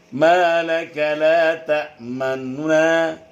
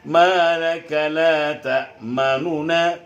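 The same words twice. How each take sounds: First: The vowel before the nun is clipped short. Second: The vowel before the nun is given full length. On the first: The speaker calls it right. "Nah, berarti itu" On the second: The speaker calls it wrong. "tidak boleh dibaca seperti"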